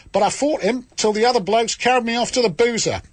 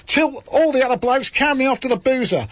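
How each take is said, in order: First: Put-on the same broad Australian accent carried through the sentence; a hammed-up Australian accent at full stretch. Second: Put-on the same line retaken in the same Australian accent; a hammed-up Australian accent again, hitting all. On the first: Host telling the letter's boxing story in a bad Australian accent. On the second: Host retelling the fight after the interruption, in a bad Australian accent. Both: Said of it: "I think I did my best".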